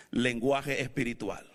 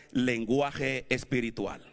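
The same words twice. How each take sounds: The two takes are said the same way.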